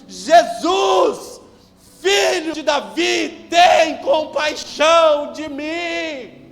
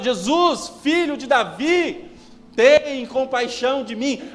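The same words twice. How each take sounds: First: It is shouted at full, very loud volume. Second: It is shouted a little louder than before.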